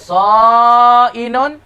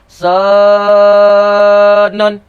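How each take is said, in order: First: A glottal stop splits the word's middle vowels. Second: A long vowel replaces the glottal stop. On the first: The weak letter is changed into hamzah. "hamzah ini terlebih ringi daripada waw dan ya. Baca sa'inun" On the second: The weak letter is changed into alif. "tukar waw dan ya tu wi jadi alif. Bukan tukar hamzah"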